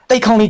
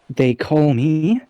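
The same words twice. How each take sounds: First: It is said in a natural, unaffected voice. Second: It is said in a prissy, royal put-on voice. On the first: She presents herself in her own way. "no longer in that prissy royal voice" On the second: She plays the part of a proper royal. "that prissy royal voice as she was about to use"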